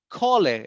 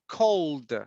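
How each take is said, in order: First: The ending is an extra syllable. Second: The ending is a single d sound. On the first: The speaker calls it wrong. "We don't say call it" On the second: The speaker calls it right. "It's cold"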